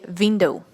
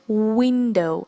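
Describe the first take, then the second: First: The word begins with a v sound. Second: The word begins with a w sound. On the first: The speaker calls it wrong. "many people say window. That's not window" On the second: The speaker calls it right. "it starts with the sound w"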